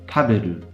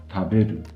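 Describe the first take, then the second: First: It is said with an odd-sounding pitch pattern. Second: It is said with a native-sounding pitch pattern. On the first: "you're going to sound a bit weird" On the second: "The verb to eat is"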